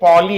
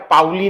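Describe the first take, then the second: First: The first syllable sounds like 'paw'. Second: The first syllable sounds like 'pow'. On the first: The speaker calls it right. "बेटा ये पॉली है ना" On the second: The speaker calls it wrong. "पाउली नहीं"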